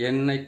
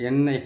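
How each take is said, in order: No difference in how they are said.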